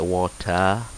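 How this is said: The R sound at the end is dropped. "British like they don't pronounce the R"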